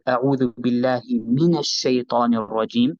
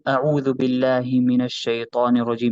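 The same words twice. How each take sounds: First: The word 'min' is said with extra emphasis. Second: It is said flat, in a monotone. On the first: The speaker stresses seeking refuge from Satan. The speaker calls it right. "we'd make a so, slight emphasis, and here we make a slightly more emphasis" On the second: The speaker does not care about the meaning. The speaker calls it wrong. "I'm not saying أعوذ بالله من الشيطان الرجيم monotone"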